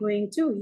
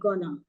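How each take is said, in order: First: Both words are said fully and separately. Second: The words are blended into one reduced word. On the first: The speaker calls it right. "The full form of gonna is going to" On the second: The speaker calls it wrong. "that's a very colloquial American usage"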